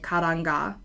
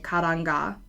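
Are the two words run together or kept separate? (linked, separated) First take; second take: linked; linked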